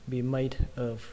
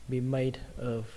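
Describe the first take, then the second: Both takes have the same delivery.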